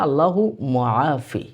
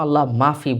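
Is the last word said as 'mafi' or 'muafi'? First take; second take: muafi; mafi. First: The last word is said fully, as muafi. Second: The last word is said short, as mafi. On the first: The speaker calls it right. "মা মাফি না" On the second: The speaker calls it wrong. "আমরা এখানে অ্যা এই দোয়াটা পড়ার সময় আল্লাহ মাফি বলি।"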